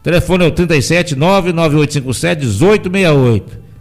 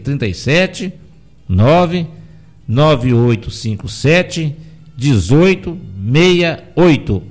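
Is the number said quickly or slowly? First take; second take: quickly; slowly. First: It is said at a quick, normal pace. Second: It is said slowly with pauses.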